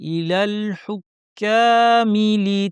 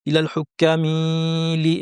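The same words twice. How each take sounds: First: The final vowel of hukkami is kept short. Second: The final vowel of hukkami is stretched out. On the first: The speaker calls it right. "এই দেরিটা করা যাবে না। শব্দটা আমার পড়া শেষ, চোখ সামনে চলে যাবে।" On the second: The speaker calls it wrong. "অনেকে ভুল পড়ে থাকেন, অনেকে বলেন ইলাল হুক্কামিলি, এভাবে পড়েন, টেনে ফেলেন।"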